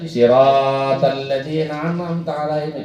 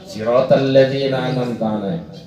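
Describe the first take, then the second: First: The vowel in sirat is held long. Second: The vowel in sirat is kept short. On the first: The speaker calls it wrong. "itu dipakai empat harokat" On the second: The speaker calls it right. "Harus kedua-duanya pendek, dua harokat"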